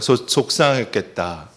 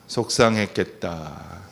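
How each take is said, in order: First: "속상했겠다" repeated at a normal pace, gently; group repeat of "속상했겠다"; repeated with audience. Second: Slow, gentle "속상했겠다" drawn out softly; empathetic phrase demo. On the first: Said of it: "다 같이 한번 따라해 보세요". (다 같이 따라 하는 "속상했겠다") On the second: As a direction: say "속상했겠다" slowly like comforting a friend. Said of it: "우리 한번 따라해 보세요". (천천히 다정하게 "속상했겠다") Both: Shown as a demonstration.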